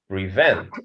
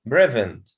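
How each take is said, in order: First: The stress is on the second syllable. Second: The stress is on the first syllable. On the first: The speaker calls it right. "so the stress in the second syllable" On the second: The speaker calls it wrong. "not prevent"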